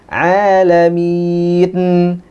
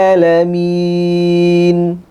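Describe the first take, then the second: The two takes are said the same way.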